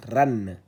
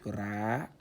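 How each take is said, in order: First: « ran » avec un n final bien net. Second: « ra » court, sans n final. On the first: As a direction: dis « ran » et non « ra ». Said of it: "ran, au lieu que ça soit ra". (« ran », le n ajouté bien audible) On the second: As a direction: dis « ra », voyelle simple. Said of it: "on l'aurait lu ra". (« ra » prononcé sans n final) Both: Shown as a demonstration.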